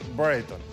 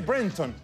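First: The name has a Spanish-style pronunciation. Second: The name has an English-style pronunciation. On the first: "ese apellido se castellaniza y se dice Brereton" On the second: "se dice Brereton. Así se dice"

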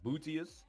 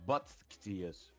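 First: The first syllable sounds like booty. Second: The name contains a k sound. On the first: "like Booty" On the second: "with a K"

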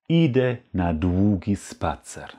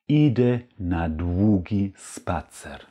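Both takes have the same delivery.

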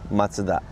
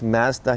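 First: Mazda is said the Japanese way. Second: Mazda is said the Canadian way.

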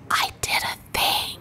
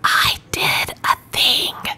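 First: It is whispered very quietly. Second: It is whispered more loudly. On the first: "Did y'all hear that?" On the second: "I'm going to try to whisper it a little bit louder"

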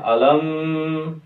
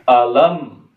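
First: The final m is held with a nasal hum. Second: The final m is short with no nasal hum. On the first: The speaker calls it wrong. "tidak boleh" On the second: The speaker calls it right. "mimnya tidak boleh diberikan dengung... cukup dengan satu harokat saja"

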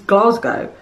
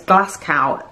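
First: The last syllable sounds like 'go'. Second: The last syllable sounds like 'cow'. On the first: The speaker calls it right. "he means Glasgow" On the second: The speaker calls it wrong. "as if it rhymes with how Americans say Moscow"

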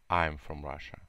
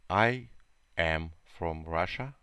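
First: I and am are joined into one contracted syllable. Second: I and am are said as two full words. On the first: "Short form – короткая форма" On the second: "Long form – это длинная форма"

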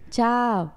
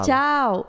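First: The goodbye is said in a soft, calm voice. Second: The goodbye is said in a plain, ordinary voice. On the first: "Olha, começou. Mas é porque tem que ser aquela coisa mais calma" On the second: "Não é assim"

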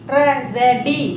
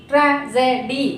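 No difference in how they are said.

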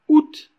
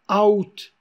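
First: The vowels merge into a single syllable. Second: The two vowels are split into two syllables. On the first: The speaker calls it right. "qui se dit août" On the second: The speaker calls it wrong. "au lieu de dire out"

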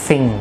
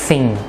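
The two takes are said the same way.

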